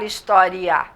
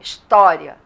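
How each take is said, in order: First: The final i and a are split into two syllables. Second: The final i and a glide together in one syllable. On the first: The speaker calls it wrong. "Ninguém fala história" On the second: The speaker calls it right. "fala história"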